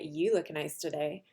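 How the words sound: It is said in a sarcastic, mocking tone. The compliment is not meant and is rude. "the second time I was being sarcastic and kind of being rude"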